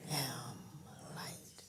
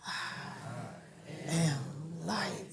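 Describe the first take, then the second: First: Breathy whispered "am light", barely audible; hushed whispered "am light"; whispered affirmation. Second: Slow, deliberate "I am light", each word drawn out; earnest, slow "I am light"; said like you mean it. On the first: Real, not acted. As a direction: whisper the words "am light" like a private prayer. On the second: Shown as a demonstration. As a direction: stretch "I am light" and lean into it with conviction. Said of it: "Say it like you mean it".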